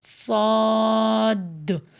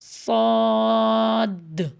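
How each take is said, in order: The two takes are said the same way.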